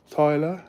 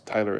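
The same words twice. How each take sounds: First: Tyler as Australian "Toyler", rising like a question; Australian accent. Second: Said in the usual way. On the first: Shown as a demonstration. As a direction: try Tyler with an Australian accent, a bit higher. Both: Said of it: "How do you pronounce Tyler in Australian accent?".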